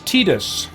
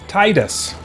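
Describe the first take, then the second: First: The first syllable does not sound like 'tide'. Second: The first syllable sounds like 'tide'. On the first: This is the official way to say it. The speaker calls it wrong. "Tidus is the official pronunciation" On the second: The name refers to ocean tides. The speaker calls it right. "his name is a reference to the tides"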